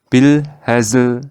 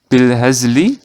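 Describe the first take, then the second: First: The word ends on the consonant without vowel. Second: The final vowel is voiced only softly. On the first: "dibaca menjadi bil hazl" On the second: "tapi harokat huruf lamnya ini dibaca pelan"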